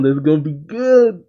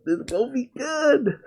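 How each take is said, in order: First: Eager, rising buildup; excited anticipation. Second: High, quiet excited squeal; giddy excitement. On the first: Fan looking forward to the fight, excited. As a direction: relish the coming showdown. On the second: Fan repeating himself about the fight, giddy high squeal. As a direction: squeak it out high and soft, thrilled. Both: Real, not acted.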